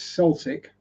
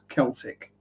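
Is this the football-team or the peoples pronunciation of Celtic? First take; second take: football-team; peoples. First: It uses the football-team pronunciation of the word. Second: It uses the peoples pronunciation of the word. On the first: It names the football team from Glasgow. "If you're rever- referring to the football team from Glasgow, it's Celtic" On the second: It refers to the peoples, language and culture. "if you're referring to something of the peoples, the language, the culture, the history, it's Celtic"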